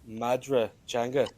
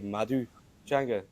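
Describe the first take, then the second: First: It is said in standard Irish pronunciation. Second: It is said in Ulster Irish pronunciation. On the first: "which is the standard dialect" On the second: "I speak uh, Ulster Irish, so we would say"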